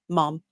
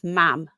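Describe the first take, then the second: First: The vowel is like the one in cot. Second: The vowel is like the one in cat. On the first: This is the form shared with Americans. "we're the only place in the world other than you guys that say mom, M O M" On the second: This is the form used in the north. "if you go up north to like Newcastle, it's mam"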